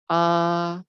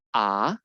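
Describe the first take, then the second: First: The pitch stays level and flat. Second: The pitch rises from low to high. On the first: "untuk yang strip itu datar ya" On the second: "nada kedua yang naik ke atas itu, nada kita naik juga"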